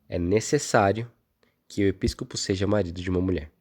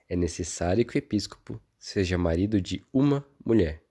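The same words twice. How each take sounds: First: The stress is on "necessário". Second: The stress is on "uma".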